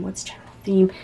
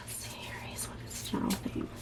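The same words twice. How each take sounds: First: Said in the usual way. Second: Faint whispered question to the cards; soft private whispered asking. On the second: Real, not acted. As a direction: breathe the question to Spirit. Asking Spirit over the cards.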